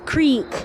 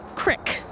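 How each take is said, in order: First: The word is said in a standard accent. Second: The word is said in a Pittsburgh accent.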